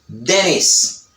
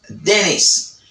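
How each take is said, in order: First: The T after N is dropped, American style. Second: The T after N is dropped, American style.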